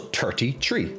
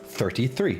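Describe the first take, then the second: First: Both words begin with a plain T sound. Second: Both words begin with a soft TH sound. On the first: "so thirty-three instead of" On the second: "instead of thirty-three"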